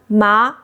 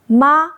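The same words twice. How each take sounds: First: The pitch rises from mid to high. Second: The pitch stays high and level. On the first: It means hemp. "Second tone ma means hemp" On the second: It means mom. "First tone ma means mom"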